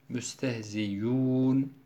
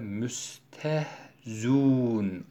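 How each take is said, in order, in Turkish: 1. Ortadaki gırtlak sesi net bir y sesine dönüşür. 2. Ortadaki gırtlak sesi tamamen düşürülür. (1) "hemze ya harfine, met harfine dönüşmüş oluyor" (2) "dammeli hemze tamamıyla hasfedilir, yok edilir"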